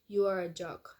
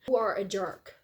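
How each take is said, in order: First: It is said with plain, bland intonation. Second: It is said with lively, expressive intonation. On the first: The speaker calls it wrong. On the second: The speaker calls it right.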